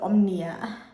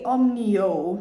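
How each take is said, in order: First: The name ends with an 'ah' sound. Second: The name ends with an 'oh' sound. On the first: The speaker calls it wrong. "not omnia" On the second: The speaker calls it right. "I meant to say omnio"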